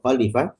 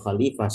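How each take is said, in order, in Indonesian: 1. Vokal setelah L pendek. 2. Vokal setelah L panjang. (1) "tanpa mad di tanpa ya madiyah setelah lam" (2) "dengan menambah ya media setelah eh, lam"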